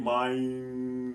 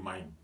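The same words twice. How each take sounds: First: "meine" stretched long, final e sounded; drawn-out correct meine. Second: "mine" as one syllable, final e dropped; common mistake mein. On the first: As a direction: hold "meine" out slowly in two syllables. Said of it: "les gens font toujours des erreurs". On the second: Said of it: "ils vont dire mine". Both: Shown as a demonstration.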